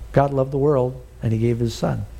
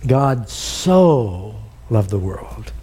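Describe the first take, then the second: First: Said in the usual way. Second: "so" drawn out very slow as an "oh"; stress on so. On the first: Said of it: "You could have left out the word "so". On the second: Shown as a demonstration. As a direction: let the word "so" swell, slowly. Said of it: "It's the word "oh".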